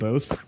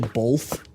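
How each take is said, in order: First: The word is said without an L sound. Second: The word is said with an L sound. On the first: This is the usual way to say it. "instead of both" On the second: This is how Midwest speakers say it. "people in the Midwest say both"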